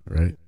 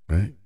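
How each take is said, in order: Both takes have the same delivery.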